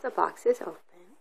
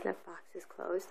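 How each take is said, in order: First: Said in the usual way. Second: Soft, hushed reading of the phrase; quiet storybook read. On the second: Shown as a demonstration. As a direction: read it softly, like a secret.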